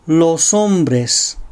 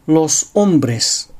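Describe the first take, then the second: First: 'los hombres' linked as lo-som-bres; linked syllables. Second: 'los hombres' split as los-ombres; word-initial glottal stop. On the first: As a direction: carry the s into 'hombres' in 'los hombres'. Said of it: "音節の区切りを正しくとって". (「los hombres」を lo-som-bres とつなげて) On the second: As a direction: catch the throat before 'hombres' in 'los hombres'. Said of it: "単語の最初に正門閉鎖を入れる癖". (「los hombres」の hombres の前に声門閉鎖) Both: Shown as a demonstration.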